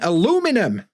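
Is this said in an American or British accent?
American. It is said in an American accent. "you mean aluminum"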